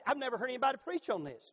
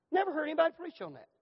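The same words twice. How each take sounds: First: Said in the usual way. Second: "Never" hit higher, pitch falling through "Never heard anybody"; emphatic repeat. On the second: Shown as a demonstration. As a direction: punch "Never" up high, then let the line fall.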